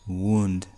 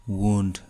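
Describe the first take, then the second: No difference in how they are said.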